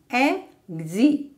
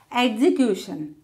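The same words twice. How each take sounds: First: Execution as e-xe-cu-tion, spaced out; four separate beats for Execution; syllable by syllable. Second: Said in the usual way. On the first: Shown as a demonstration. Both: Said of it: "how to divide words".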